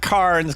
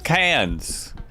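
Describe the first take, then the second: First: The word is said with an R sound. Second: The word is said without an R sound. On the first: The speaker calls it wrong. "just don't pronounce the R" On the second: The speaker calls it right. "just don't pronounce the R"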